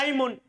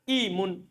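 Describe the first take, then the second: First: The word begins with an 'a' vowel. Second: The word begins with an 'i' vowel. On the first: This is the original form. "di fathah keduanya atau di kasro hamzanya aimun. Paham kan? Asalnya aimun" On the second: This is an allowed alternative reading. "tapi boleh dibaca apa? Imun, boleh"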